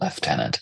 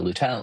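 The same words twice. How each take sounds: First: It is said in the traditional Canadian way. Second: It is said in the common American way.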